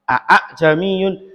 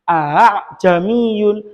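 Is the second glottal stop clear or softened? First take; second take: clear; softened. First: Both glottal stops are sounded sharply and fully. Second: The second glottal stop is softened and slightly drawn out. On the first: The speaker calls it wrong. "kayak orang B A B ya" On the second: The speaker calls it right. "Kita ringankan. Agak diolor sedikit"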